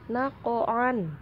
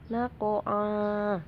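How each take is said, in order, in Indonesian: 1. Kata ini berakhir dengan bunyi n. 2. Kata ini berakhir dengan vokal a biasa. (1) "Ini tulisannya naqo'an" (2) "dibacanya menjadi fathah"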